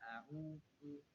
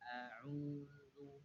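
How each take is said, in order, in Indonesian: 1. Bunyinya digabung jadi satu. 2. Bunyinya dipisah dan dipanjangkan. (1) "jangan dibaca a'udzu" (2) "Cara baca dipisah rahangnya. A'udzu a'udzu ditarik"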